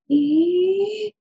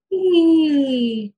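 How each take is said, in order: First: High rising "ee" sucked inward; inhalation phonation. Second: "ee" descending from high on the out-breath; exhalation phonation. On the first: Clinician tries it without hands, high inhaled "ee". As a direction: voice "ee" on an in-breath, high. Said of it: "I'll, I'll try it". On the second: Clinician tries without hands, exhaled falling "ee". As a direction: slide "ee" down while breathing out. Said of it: "come back down on that exhalation". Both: Shown as a demonstration.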